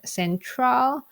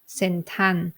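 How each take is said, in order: First: The word ends with an L sound. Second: The word ends with an N sound. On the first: "if I want to say the word central" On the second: "in Thai pronunciation, I would say sentan"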